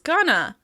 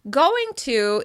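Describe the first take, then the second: First: The words are reduced and run together. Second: Both words are said fully and separately.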